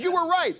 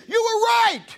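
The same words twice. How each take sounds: First: Pitched-up eager "You were right"; a lady finally admitting it, thrilled; first pitched-up "right", not yet a shout; excited lady. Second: Very high, loud shout of "right"; triumphant lady. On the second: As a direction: crow the punchline like a thrilled churchgoer. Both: Retold or imitated. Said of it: "She says".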